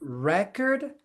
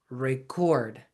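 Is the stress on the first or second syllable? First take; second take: first; second. First: The stress is on the first syllable. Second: The stress is on the second syllable. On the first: It is the noun. The speaker calls it wrong. "Not record" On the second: It is the verb. The speaker calls it right. "but record. Record is a verb"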